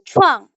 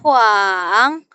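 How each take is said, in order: First: The syllable is said in the fourth tone. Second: The syllable is said in the third, dipping tone. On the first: "Nada keempat itu chuang" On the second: "Nada ketiga itu dia naik turun"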